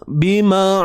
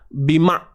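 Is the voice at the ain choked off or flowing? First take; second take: flowing; choked. First: The voice is released and keeps flowing. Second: The voice is held back and choked off. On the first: The speaker calls it right. "biarkan suara tu terlepas" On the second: The speaker calls it wrong. "tak mau gitu"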